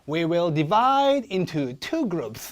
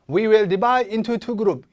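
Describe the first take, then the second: First: 'Into' is low; 'two' peaks high and strong. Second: 'Into' and 'two' have similar pitch and stress.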